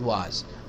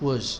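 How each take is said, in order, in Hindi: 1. स्वर पूर्ण है, मुँह चौड़ा खुला। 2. स्वर कमज़ोर है, मुँह लगभग बिना खुले।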